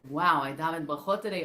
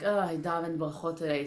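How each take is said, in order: First: It sounds excited and pleased. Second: It sounds deflated and unimpressed.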